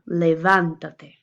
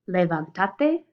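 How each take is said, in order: First: The stress is on the third-to-last syllable. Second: The stress is on the second-to-last syllable. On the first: The speaker calls it right. "I want the second" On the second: The speaker calls it wrong. "The second to last syllable gets the vocal stress"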